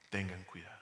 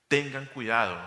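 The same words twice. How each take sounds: First: Soft warning. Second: Firm warning. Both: Shown as a demonstration.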